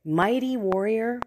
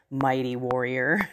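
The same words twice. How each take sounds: First: "Mighty warrior" repeated higher, as a question; amused disbelief. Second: Lower, grand address to a hero; angel of the Lord. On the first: Retold or imitated. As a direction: echo the title as if it were a joke. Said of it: "it's kind of funny". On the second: Acted. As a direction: proclaim it as a heavenly messenger, pitched down. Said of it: "an angel of the Lord says".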